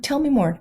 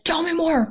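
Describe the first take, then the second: First: It is said in a warm, curious tone. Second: It is said in a harsh, interrogating tone.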